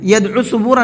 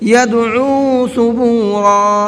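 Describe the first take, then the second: First: The vowel after the ain is short. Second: The vowel after the ain is drawn out. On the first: The speaker calls it wrong. "यदउ सुबूरा नहीं पढ़ना है" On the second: The speaker calls it right. "यदउ के आइन को खींच करके पढ़ना है"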